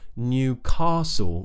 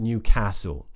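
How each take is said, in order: First: The A is a long, open back vowel. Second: The A is a short front vowel. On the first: "the tongue is pulled back a bit more and the mouth is a bit more open" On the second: "rather than"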